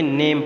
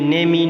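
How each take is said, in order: First: The word ends on the m sound. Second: An extra vowel sound follows the m. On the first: The speaker calls it right. "बल्कि नेम पढ़ेंगे" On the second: The speaker calls it wrong. "नेम ई नहीं पढ़ेंगे"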